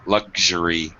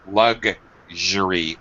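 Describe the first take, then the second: First: The middle consonant is a soft 'zh' sound. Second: The middle consonant is a hard 'g' sound. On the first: "It's that zh sound" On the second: "Americans pronounce it like lug with a G"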